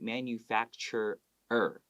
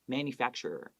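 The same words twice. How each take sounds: First: The word is said slowly and carefully. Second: The word is said quickly and naturally.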